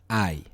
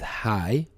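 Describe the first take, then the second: First: The word begins directly with the vowel. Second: The word begins with an h sound. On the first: The speaker calls it right. "but I" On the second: The speaker calls it wrong. "it is not pronounced as hi"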